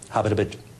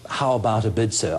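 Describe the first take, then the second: First: It is said quickly and cut short. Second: It is said slowly and drawn out.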